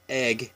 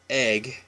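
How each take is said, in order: First: It uses the common general American vowel. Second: It uses the common general American vowel.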